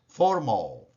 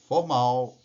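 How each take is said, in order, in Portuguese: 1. É pronunciada com sons ingleses. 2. É pronunciada com sons portugueses. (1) "em inglês" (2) "Em português"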